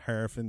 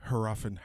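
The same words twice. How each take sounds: First: Harafin said as HAIR-uh-fin; first-syllable stress. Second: Harafin said as huh-RAH-fin; second-syllable stress. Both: Shown as a demonstration. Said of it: "whichever way you wanna s-, pronounce it".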